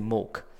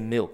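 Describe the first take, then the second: First: It is said in a Chinese accent. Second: It is said in a standard accent.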